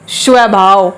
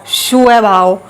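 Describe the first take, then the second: Both takes have the same delivery.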